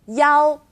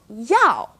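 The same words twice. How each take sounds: First: It is said with a high level tone. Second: It is said with a sharply falling tone. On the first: It means the number one. "first tone" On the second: It means to want or will. "fourth tone"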